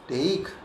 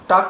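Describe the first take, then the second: First: The vowel is an ay sound. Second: The vowel is a long aa sound. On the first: The speaker calls it right. "अब इसका उच्चारण हुआ टेक" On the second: The speaker calls it wrong. "टाक कहेंगे? नहीं।"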